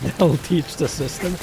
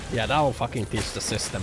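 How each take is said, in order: First: Slow, louder, hammed-up smug declaration; mock triumphant. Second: Said in the usual way. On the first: Streamer mocking his own petty protest, slow smug proclamation. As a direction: savour it like a grand victory.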